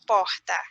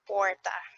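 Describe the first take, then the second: First: The r sounds like a breathy h. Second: The r sounds like an English r. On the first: This is how people from the northeast say it. "it's more like an aspiration" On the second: This is how people from the São Paulo countryside say it. "they have this er sound"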